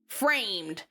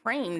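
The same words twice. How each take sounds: First: It is yelled in Terezi's weird, annoying voice. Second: It is said in a normal speaking voice.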